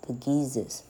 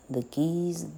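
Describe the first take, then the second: First: The last word has two syllables. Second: The last word has one syllable.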